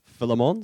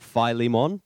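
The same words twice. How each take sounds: First: The stress is on the second syllable. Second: The stress is on the first syllable. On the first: The speaker calls it right. "Phil Lee, with Lee being the emphasis" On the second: The speaker calls it wrong. "not Philemon"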